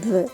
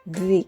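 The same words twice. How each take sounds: First: The word ends in a short 'uh' vowel. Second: The word ends in a long 'ee' vowel. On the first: It is not the form used before a vowel. The speaker calls it wrong. "bukan the" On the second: It is used before a word starting with a vowel. The speaker calls it right. "khusus untuk kata the yang diikuti dengan kata benda yang diawali huruf vokal, maka kita baca the ya"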